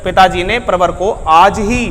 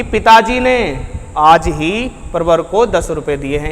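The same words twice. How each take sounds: First: Slow build to an emphatic आज ही; stress on आज ही. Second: पिताजी ने lifted and set apart by a pause; emphatic पिताजी ने at the start; stress on पिताजी ने. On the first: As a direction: make आज ही the focus, drawn out. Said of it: "यहाँ पर फोकस कर दूँ कि आज ही". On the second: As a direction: make पिताजी ने the focus, then let the rest drop. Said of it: "इस तरीके से बोलूँगा ना". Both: Shown as a demonstration.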